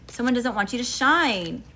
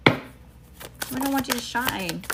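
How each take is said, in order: First: Said in the usual way. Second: Slowed, drawn-out sassy repeat; slow, knowing emphasis. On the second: Real, not acted. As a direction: drag it out like a pointed warning. Repeats line, second more drawn out.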